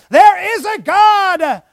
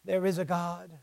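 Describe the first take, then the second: First: There is a God shouted high and slow; loud cry. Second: There is a God dropped low and soft; soft echo. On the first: Retold or imitated. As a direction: proclaim it at full voice. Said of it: "It cries out". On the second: Shown as a demonstration. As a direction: let it fall to a near hush.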